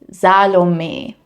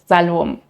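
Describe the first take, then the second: First: The final E is softly pronounced. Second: The final E is left out. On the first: The speaker calls it right. "my name is pronounced as Salome" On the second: The speaker calls it wrong. "and not Salom"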